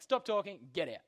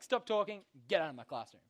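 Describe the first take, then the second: First: A light stern teacher-like order; stern command. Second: A hint of a stern teacher's order; strict teacher. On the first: Retold or imitated. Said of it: "He's just like". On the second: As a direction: snap it like a teacher ejecting a kid. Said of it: "The teacher's just like".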